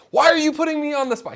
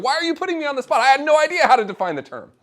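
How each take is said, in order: First: High, loud mock protest; mock indignant professor. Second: High, loud playful complaint; mock indignant professor. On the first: Professor protesting to the speaker after the talk, mock indignant and high. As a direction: playfully accuse the questioner of ambushing him. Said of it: "he came up shaking his fist". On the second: Professor admitting to the speaker he had no idea, mock outrage. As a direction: pretend outrage, not really mad. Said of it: "He wasn't actually mad".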